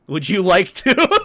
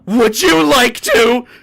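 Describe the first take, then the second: First: It is said in a normal voice. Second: It is said imitating Robbie Rotten's voice.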